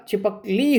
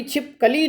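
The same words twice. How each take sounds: First: छिपकली split as छिपक + ली, weight on ली; stress on final ली. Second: छिपकली broken after छिप, as छिप + कली; wrongly split छिप-कली. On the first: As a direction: say छिपक together, then a stressed ली. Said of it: "छिपकली ना होकर छिपकली होगा". (छिपकली में छिपक साथ, ली पर बल) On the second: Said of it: "इसका उच्चारण भी छिपकली ना होकर". (छिपकली को छिप-कली तोड़कर बोलें) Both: Shown as a demonstration.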